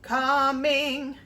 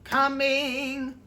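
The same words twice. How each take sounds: First: "coming" with both halves the same length; even "coming", no long note; equal syllables. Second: "Coming" with a clipped "come" and a held "ing"; short come, long ing. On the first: Teacher showing the wrong way, even and flat. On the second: Teacher showing a student the rhythm, short then long. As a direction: snap the "come", stretch the "ing". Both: Shown as a demonstration. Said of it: "rather than, if they were equal".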